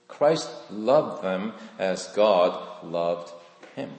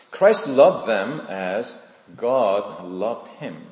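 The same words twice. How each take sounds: First: Christ loved them as God loved him, drawn out slow and soft; slower, softer repeat. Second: Slow emphatic statement. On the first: Preacher repeating the key line slowly and softly to the congregation. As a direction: let it sink in, very slow. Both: Shown as a demonstration. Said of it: "So this is what I've discovered".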